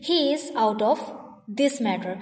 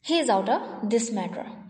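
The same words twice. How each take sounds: First: Every word is said fully and separately. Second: The words are shortened and run together.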